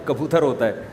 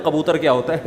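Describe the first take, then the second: First: کبوتر with an ordinary front k; correct pronunciation of کبوتر. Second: کبوتر begun with a throaty q; mispronounced کبوتر. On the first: Urdu speaker correcting a slip, کبوتر pronounced with plain k. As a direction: say کبوتر starting on a light k, not q. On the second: Urdu speaker mocking a slip, echoing کبوتر mispronounced with q. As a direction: echo the wrong کبوتر, q in place of k. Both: Shown as a demonstration. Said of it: "جس کو اردو آتی ہے مذاق اڑائے گا".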